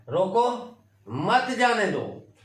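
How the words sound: There is a pause right after रोको.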